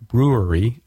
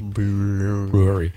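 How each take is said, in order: First: Said in the usual way. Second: BREWERY stretched very slowly, as if tipsy; drawn-out BREWERY. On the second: Pretend. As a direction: draw out the first syllable of BREWERY, mock-drunk. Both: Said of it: "Like, I've been drinking tonight already".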